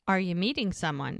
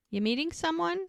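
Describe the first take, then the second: First: Said in the usual way. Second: Pitched well up, lightly voiced question; high quoted question. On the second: Brady asking Bree at the bar, high curious question. She asks him.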